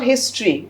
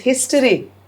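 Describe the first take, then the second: First: The middle O vowel is dropped. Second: The middle O vowel is clearly pronounced. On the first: The speaker calls it wrong. "It's not history" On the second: The speaker calls it right. "It's history. There's an O there"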